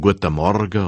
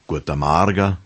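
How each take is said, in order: First: It is said in standard German pronunciation. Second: It is said in the local Montafon dialect.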